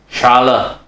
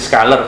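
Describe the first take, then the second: First: It begins with an sh sound. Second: It begins with an sk sound. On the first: This is the original German pronunciation. The speaker calls it right. "kalau bacanya yang benar setelah saya googling itu" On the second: This is how people locally say it. The speaker calls it wrong. "Kalau orang sini Scalar"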